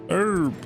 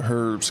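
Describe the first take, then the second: First: The word begins with a vowel, no H sound. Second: The word begins with an audible H sound. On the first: The speaker calls it right. "The H is silent" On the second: The speaker calls it wrong. "Did you pronounce the H?"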